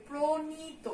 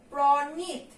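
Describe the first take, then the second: First: প্রণীত said as pronito with an o after p; প্রণীত with a dental n and final o; spoken pronunciation. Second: Said in the usual way. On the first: Shown as a demonstration. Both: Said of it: "কিন্তু এটার উচ্চারণ আমরা কি করি".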